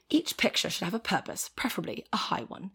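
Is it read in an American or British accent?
British. It is read in a put-on British accent.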